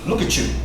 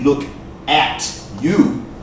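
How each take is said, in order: First: The T and Y blend into one sound. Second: The T and Y stay separate sounds. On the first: "the T U sound" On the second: "That would be perfect English"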